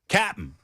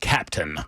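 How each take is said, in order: First: The word is shortened, like cap'n. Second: The word is said in full, like captain. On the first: The speaker calls it right. "Captain is not spelled out" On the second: The speaker calls it wrong. "not Captain"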